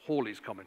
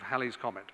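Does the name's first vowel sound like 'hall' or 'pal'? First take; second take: hall; pal. First: The first vowel sounds like in 'hall'. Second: The first vowel sounds like in 'pal'. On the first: The speaker calls it right. "actually, is one supposed to pronounce it" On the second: The speaker calls it wrong. "I always thought it was Halley"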